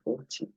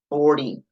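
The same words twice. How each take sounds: First: The t is said as a clear t. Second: The t is said as an r-like tap. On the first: This is how speakers with a British-based accent say it. "eles vão falar o ti" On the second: This is the American pronunciation. "Mas o inglês americano, ele tem que fazer esse ri"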